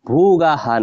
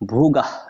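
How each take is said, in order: First: The final h is followed by an extra vowel. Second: The word ends on a bare h sound. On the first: The speaker calls it wrong. "ভোগাহা না বলে" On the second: The speaker calls it right. "এটা এভাবে উচ্চারণ করব"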